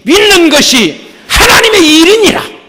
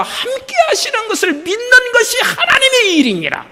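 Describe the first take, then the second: First: Loud rising proclamation of 하나님의; preached verse climax. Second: High, laughing, falling on 하나님의; much higher laughing version of 하나님의 일이니라; joyful restatement. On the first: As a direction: proclaim 하나님의 with a lifted, ringing tone. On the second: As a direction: let 하나님의 spill out with a laugh, then fall. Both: Acted.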